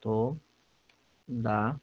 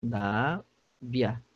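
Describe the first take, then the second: First: Todavia said very slowly, split syllable by syllable; "todavia" read slowly and softly, ending in a separate "a" after the "i"; syllable demo. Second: Todavia drawn out very slowly, as if split into syllables; "todavia" stretched slowly with no stress on the "i", as a diphthong; syllable demo. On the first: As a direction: draw "todavia" out with the "i" kept apart from the "a", the right way. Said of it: "o certo da palavra todavia é". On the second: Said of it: "seria assim, ó". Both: Shown as a demonstration.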